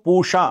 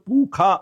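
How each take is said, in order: First: The middle consonant is an sh sound. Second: The middle consonant is a kh sound. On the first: This is how people in the south say it. "మనం పూషా అంటాం" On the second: This is how people in the north say it. "North లో వెళ్తే పురుష అని వాళ్ళు పూఖా అని పిలుస్తారు"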